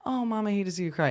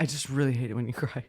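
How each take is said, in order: First: Higher, quick, sugary imitation; mock sweet. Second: Quick, unsentimental retold complaint; not sweet. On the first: Mom imagines a caring daughter consoling her, mock sweetly. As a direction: put on a sweet, sympathetic child's voice. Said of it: "in a sweet, like". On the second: Mom retells her daughter's complaint about crying, unsweetly. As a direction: imitate a teen's unsweet, matter-of-fact confession. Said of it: "but not, like, in a sweet".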